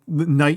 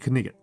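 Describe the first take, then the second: First: The K and G sounds are silent. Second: The K and G sounds are pronounced. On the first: This is the modern pronunciation. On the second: This is the older historical pronunciation.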